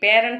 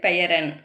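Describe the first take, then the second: First: The word is contracted into two syllables. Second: The word is said fully in three syllables. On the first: This is the casual spoken form. The speaker calls it wrong. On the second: This is the standard written form. The speaker calls it right.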